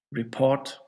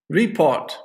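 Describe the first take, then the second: First: Re-PORT, weight at the end; stress on second syllable. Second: RE-port, RE hit hard and loud; stress on first syllable. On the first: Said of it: "put it on the second one". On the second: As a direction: say Report with the weight on Re. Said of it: "stress, on the first syllable". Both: Shown as a demonstration.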